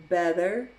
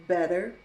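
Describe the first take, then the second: No difference in how they are said.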